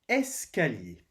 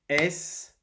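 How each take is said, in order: First: Said in the usual way. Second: "Escalier" in three separate beats, es-ca-lier; split into syllables. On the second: Shown as a demonstration. Teacher showing pupils the syllables of "Escalier", split apart. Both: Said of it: "Alors on découpe".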